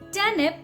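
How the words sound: The R sound is silent. "if you're working on your Indian pronunciation, just call it turnip"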